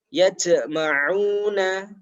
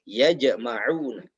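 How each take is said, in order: First: The j ends with a hissing sound. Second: The j ends with a clear bounce. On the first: The speaker calls it wrong. "ini bukan pantulan, tapi ini adalah desis" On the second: The speaker calls it right. "Jadi di jimnya dipantulkan"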